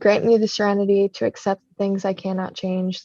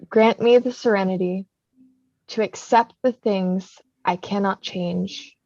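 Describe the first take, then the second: First: It is said fast. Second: It is said slowly.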